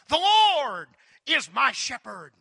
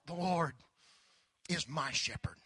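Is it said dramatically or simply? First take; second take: dramatically; simply. First: It is said with dramatic, oratorical inflection. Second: It is said simply and sincerely, without oratory.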